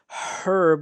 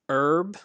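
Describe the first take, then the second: First: The word starts with an h sound. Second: The word starts without an h sound. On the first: This is the British pronunciation. "in British English, they do pronounce the H" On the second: This is the American pronunciation. "in America, we pronounce this word herb. We don't pronounce the H"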